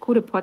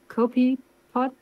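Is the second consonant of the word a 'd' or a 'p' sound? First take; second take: d; p. First: The second consonant sounds like a 'd'. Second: The second consonant sounds like a 'p'. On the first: The speaker calls it wrong. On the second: The speaker calls it right.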